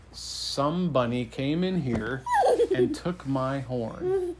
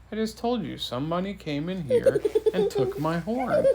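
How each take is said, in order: First: Unhurried, measured king's announcement; weighty, drawn-out delivery with amusement creeping in; slow and deliberate. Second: High-pitched mock indignation; storybook king losing patience; exasperated repeat. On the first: Acted. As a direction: spell out the pun slowly. King delivers pun slowly, deliberately. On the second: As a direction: insist on it, pitch raised, amused.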